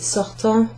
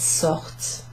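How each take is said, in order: First: The final ending is pronounced as a nasal vowel. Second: The final ending is silent after the T. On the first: The speaker calls it wrong. "you don't have to pronounce it sortant" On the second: The speaker calls it right. "it's sort"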